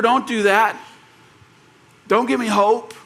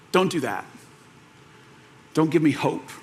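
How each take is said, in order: First: Higher, more forceful plea; acted pleading protest. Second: Imitated cracking voice. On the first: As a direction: push back, begging not to be given hope. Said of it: "say back to her". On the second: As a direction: quietly act out someone afraid to hope. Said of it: "like, this cracking voice".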